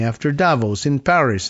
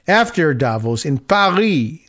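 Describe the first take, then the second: First: Said in the usual way. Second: Mock French accent, Paris as "Paree". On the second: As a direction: imitate a Frenchman reading aloud, French accent. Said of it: "trying to do a French accent".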